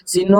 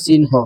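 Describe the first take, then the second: First: Said in the usual way. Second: চিহ্ন split as sin-ho; teacher breaking চিহ্ন into its spoken sounds; pronunciation demo. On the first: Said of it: "তুমি লিখবা চিহ্ন". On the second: Shown as a demonstration. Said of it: "এটা উচ্চারণ করবা".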